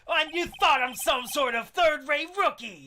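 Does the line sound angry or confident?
angry. It sounds angry rather than confident.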